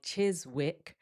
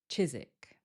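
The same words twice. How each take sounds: First: A W sound is heard in the middle. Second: No W sound is heard in the middle. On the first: The speaker calls it wrong. "this doesn't sound like Chiswick" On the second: The speaker calls it right. "we remove that W"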